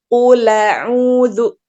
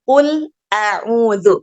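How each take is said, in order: First: The l runs straight into the vowel. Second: A glottal stop separates qul from a'udzu. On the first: "harokat hamzahnya fathah dipindahkan ke harokat lam yang sukun" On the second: "Kalau kita bacanya qul a'udzu"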